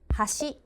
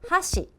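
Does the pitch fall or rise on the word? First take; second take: rise; fall. First: The pitch does not fall; it rises. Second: The pitch goes down across the word. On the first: It means bridge. "that means bridge" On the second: It means chopsticks. "the tone that goes down"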